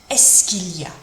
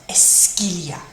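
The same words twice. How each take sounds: No difference in how they are said.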